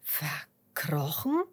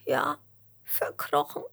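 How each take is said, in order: First: Slow, drawn-out puzzled echo; erstaunte Frage. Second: High, breath-broken tearful worm; gespieltes Schluchzen. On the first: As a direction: repeat it slowly in mild astonishment. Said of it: "fragt Fitus erstaunt". (langsam und erstaunt nachfragend) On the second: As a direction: answer as a small worm sobbing. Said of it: "schluchzt der Regenwurm". (hohe, weinerliche Wurmstimme) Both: A narrator's reading.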